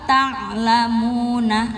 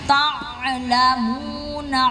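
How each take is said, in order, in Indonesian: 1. Bunyi ain-nya datar dan sedang. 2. Bunyi ain-nya berlebihan dan dilebih-lebihkan. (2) "enggak usah"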